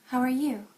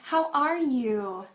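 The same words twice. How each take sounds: First: It is soft and monotone. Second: It is lively with strong highs and lows.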